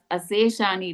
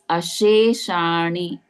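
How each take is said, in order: First: The first hissing sound is a plain s. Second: The first hissing sound is sh. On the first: The speaker calls it wrong. "you're getting as Aseshani" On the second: The speaker calls it right. "it is as Asheshani"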